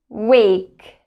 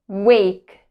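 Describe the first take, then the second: The two takes are said the same way.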